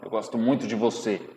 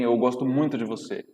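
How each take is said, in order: First: It is said in a hateful, hostile tone. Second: It is said in a plain, friendly tone.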